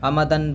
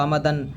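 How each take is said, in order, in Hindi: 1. शब्द n की ध्वनि से खत्म होता है। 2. शब्द n की ध्वनि से खत्म होता है।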